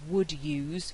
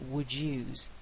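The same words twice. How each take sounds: First: The d and y stay separate sounds. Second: The d and y merge into j. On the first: "instead of" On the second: "it's produced as j"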